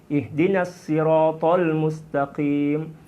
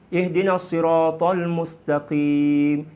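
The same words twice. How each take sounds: Both takes have the same delivery.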